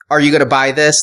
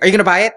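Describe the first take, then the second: First: It sounds stern and almost scolding. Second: It sounds eager, like a pestering little kid.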